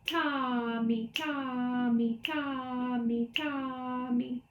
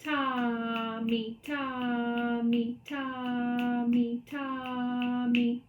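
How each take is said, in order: First: Brisker chant, long TA and quick MI; steady quicker TA-MI rhythm; faster rhythm demo. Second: Long TA, short MI, chanted slowly; sustained TA with MI tucked on the end; slow rhythm demo. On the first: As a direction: chant the dotted pattern a little faster. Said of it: "Again, a little faster". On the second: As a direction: chant the dotted pattern slowly and evenly. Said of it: "This is how I say that pattern". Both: Shown as a demonstration.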